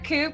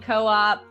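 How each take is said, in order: First: It is said as one syllable, like a bird coop. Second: It is said as two syllables, co-op. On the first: It refers to a coop for birds. "it's either Coop because it's Raven" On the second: It refers to a cooperative. "and then co-op"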